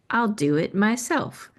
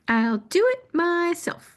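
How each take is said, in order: First: It is said in her ordinary speaking voice. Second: It is said in a put-on storybook character voice.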